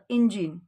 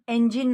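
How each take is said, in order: First: The word begins with an 'ih' vowel sound. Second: The word begins with an 'eh' vowel sound. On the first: The speaker calls it right. "म्हणून ईचे दोन उच्चार आहेत ए आणि ई" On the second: The speaker calls it wrong. "एंजिन नाही म्हणू शकत"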